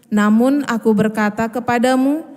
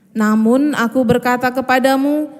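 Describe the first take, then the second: The two takes are said the same way.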